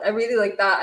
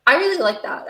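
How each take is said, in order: First: Said in the usual way. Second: High, louder burst of delight; light up at the line, pitched up and louder; excited delight. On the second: Real, not acted. Repeating a line she loves.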